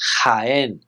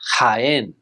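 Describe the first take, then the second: No difference in how they are said.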